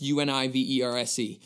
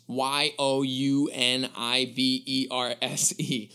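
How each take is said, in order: First: Letters U N I V E R S E read one by one in plain voice; spelled out letters. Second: Letters Y O U N I V E R S E read slowly one at a time; spelled you-niverse. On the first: Explaining the normal word to listeners, plain letter-by-letter spelling. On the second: Revealing the pun to listeners, slow spelled-out letters. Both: Shown as a demonstration.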